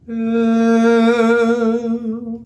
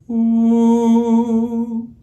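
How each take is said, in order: First: The vowel sounds bright and flatter. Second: The vowel sounds dark and rounded. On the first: "with a flatter, higher tongue, brighten it to ooh" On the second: "the dark oo sound"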